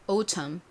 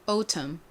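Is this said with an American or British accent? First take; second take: British; British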